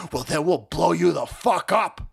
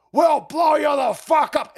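First: Imitated activist threat, not yet shouted; mock threat. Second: Slow, high, hammed-up shout; mock shouted threat. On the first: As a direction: put on a threatening voice, holding back. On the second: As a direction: yell the threat like a raving caricature. Repeats mocked threat, escalating.

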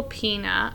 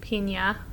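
First: Pena with a plain n, as "PEE-nuh"; "PEE-nuh", ordinary English n in Pena; N without its accent. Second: Pena with a Spanish ñ, as "PEEN-yuh"; "PEEN-yuh", soft ny sound in Pena; accented N. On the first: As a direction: say Pena with no y-glide after the n. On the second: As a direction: put a y-glide after the n in Pena. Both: Shown as a demonstration. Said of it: "there's an accent on that N".

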